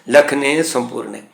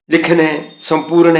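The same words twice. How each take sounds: First: ਲਖਨੇ ਸੰਪੂਰਨੇ said slowly, dots read as a final "e"; slow, careful ਸੰਪੂਰਨੇ with the e ending; correct pronunciation. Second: Slow, spelled-out reading ਲਿਖਣੇ ਸੰਪੂਰਨ as written; teacher reads ਲਿਖਣੇ ਸੰਪੂਰਨ letter by letter, slowly. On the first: Teacher models the right reading slowly. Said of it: "ਉਚਾਰਨ ਹੋਵੇਗਾ". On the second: Teacher shows students the written form, read slowly. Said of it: "ਇਹ ਲਫ਼ਜ਼ ਲਿਖੇ ਨੇ". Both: Shown as a demonstration.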